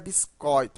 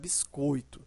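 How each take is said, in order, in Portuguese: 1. O ditongo oi é pronunciado com vogal aberta. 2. O ditongo oi é pronunciado com vogal fechada. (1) "mas não é biscoito" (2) "é biscoito"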